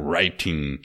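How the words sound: It is said with a British accent.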